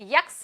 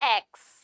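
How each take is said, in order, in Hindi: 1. यह 'y' की आवाज़ से शुरू होता है, 'yeks'। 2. यह सीधे स्वर से शुरू होता है, 'eks'। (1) "यक्स नहीं" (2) "नहीं एक्स"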